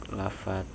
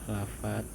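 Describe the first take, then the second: The two takes are said the same way.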